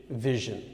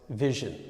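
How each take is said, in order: The two takes are said the same way.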